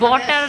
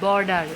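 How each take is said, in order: First: The word is said with a 't' and no 'r'. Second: The word is said with an 'r' and a 'd'. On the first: This is how people say it in the other speaker's home region. The speaker calls it wrong. "বটার না" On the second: This is the standard form of the word. The speaker calls it right.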